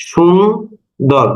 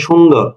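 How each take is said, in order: First: "সুন্দর" very slow, সুন held, then দর; split into syllables. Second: Said in the usual way. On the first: Shown as a demonstration. Teacher asking about syllable types, "সুন্দর" drawn apart. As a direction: say "সুন্দর" in two separate, slow closed syllables. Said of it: "দুটোই আমার কি? বদ্যাক্ষর". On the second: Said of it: "আবার মনে করেন".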